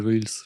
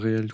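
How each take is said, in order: First: The word is pronounced with an American accent. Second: The word is pronounced the French way. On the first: This is the normal way to say it. "à l'américaine, c'est reels, tu vois? Genre avec l'accent et tout" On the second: This is the older way many people still say it. "il y a beaucoup de gens qui disent encore réels"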